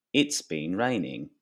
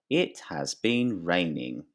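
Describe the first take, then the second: First: "It's been raining" with It has run together as It's; contracted It's been. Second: Said in the usual way. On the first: Shown as a demonstration. Teacher demonstrating the contraction "It's been" to students. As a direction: blend "It's been" into one quick beat.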